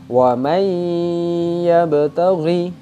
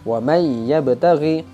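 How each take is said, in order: First: The merged sound has a long nasal hum. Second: The merged sound has little nasal hum. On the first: The speaker calls it right. "harus diidghamkan atau harus dimasukkan dengan cara ditambah dengan dengung" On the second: The speaker calls it wrong. "Itu kurang tepat karena sudah masuk tapi kurang dengung"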